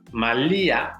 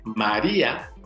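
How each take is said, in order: First: The middle consonant is an L sound. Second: The middle consonant is a tapped R sound. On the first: This is the name adapted to Nahuatl. "pronunciada en náhuatl como una L" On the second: This is the Spanish form of the name. "sonido R del castellano"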